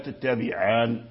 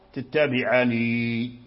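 First: The word ends without a final long 'ee' vowel. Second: The word ends with a final long 'ee' vowel. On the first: The final ya is dropped when pausing. "فحذفها ألا تتبعان إذا وقف" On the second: The final ya is kept when pausing. "تتبعاني بإثبات الياء"

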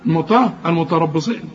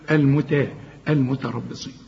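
First: The t sound is emphatic and heavy. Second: The t sound is plain and light. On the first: The speaker calls it wrong. "هتحول لي التلطة مطا المتربصين تنفع؟ لا" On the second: The speaker calls it right. "التاء في القرآن تاء"

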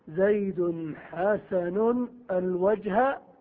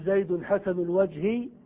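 First: The last word ends in an a vowel. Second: The last word ends in an i vowel. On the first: The face is treated like a direct object. "أن تنصب المعمول على أنه مشبه بالمفعول به" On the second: The face is joined to the adjective as a possessive. "تجر معمولها ... وذلك بالإضافة"

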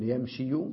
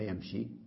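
First: The word ends with a voweled 'yu' sound. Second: The word ends with a plain long 'ee'. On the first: The speaker calls it wrong. "بدلا أن نقول يمشي" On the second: The speaker calls it right. "قلنا يمشي، حذفنا الحركة وضعنا سكونة"

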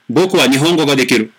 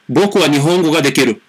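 No difference in how they are said.

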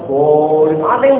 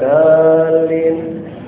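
First: The first consonant is deep and heavy. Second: The first consonant is light and plain. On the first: "dalam banget" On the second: "ada yang enteng"

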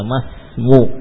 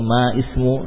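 First: The s follows ma directly with no vowel. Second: An extra i vowel is heard before the s. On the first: The speaker calls it right. "langsung saja masmu" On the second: The speaker calls it wrong. "Tidak lagi dibutuhkan alifnya"

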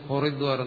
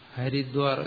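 First: The first vowel is a rounded 'o' sound. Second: The first vowel is an open 'a' sound. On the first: This is how Bengali speakers say it. "അവർ പറയുന്നു ഹൊറിദ്വാർ എന്നാണ്" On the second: This is the usual local way of saying it. "നമ്മളിപ്പോൾ ഹരിദ്വാർ എന്ന് പറയും"

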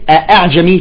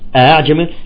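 First: Both glottal stops are fully pronounced. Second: The second glottal stop is softened. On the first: "فتحس ثقيلة على النطق" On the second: "فيسهل الثانية نقول"

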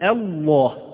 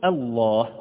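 First: The opening hamza is heavy and forced. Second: The opening hamza is light and plain. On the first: The speaker calls it wrong. "لا نقول الله، الله هذه فيها شيء من التصنع" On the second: The speaker calls it right. "ولكن نقول الله ببساطة ويسر"

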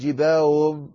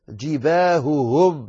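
First: The two h sounds are merged into one. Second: Both h sounds are pronounced clearly and separately. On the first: The speaker calls it wrong. "لا تقول جباههم هكذا وتدغم الهائين في بعضهم البعض" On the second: The speaker calls it right. "وصفي الهاء"

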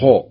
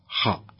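First: The kh sound is overly heavy, with rounded lips. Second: The kh sound is heavy and open. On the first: The speaker calls it wrong. "يبالغ في التفخيم فيضمه" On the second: The speaker calls it right. "الصحيح هو نطق الحرف كما ينبغي مفتوحا"

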